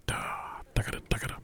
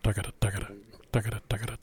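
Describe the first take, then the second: First: Tagada whispered quick and crisp. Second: Quick crisp sung tagada, tagada; sung, articulate each tagada cleanly; sung sixteenth demo. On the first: Clinician to band repeating sixteenths, whispered. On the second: Clinician to band showing sixteenths, crisp sung syllables. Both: Shown as a demonstration. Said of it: "projection and the articulation of the sixteenth".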